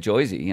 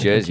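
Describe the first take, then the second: First: The first vowel sounds like 'oy'. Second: The first vowel sounds like 'er'. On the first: This is how people over there say it. "they think we sound weird when we say it like that" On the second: This is how an Australian says it. "Australian, mate"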